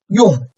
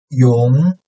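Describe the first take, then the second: First: The pitch falls sharply from high to low. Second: The pitch rises from mid to high.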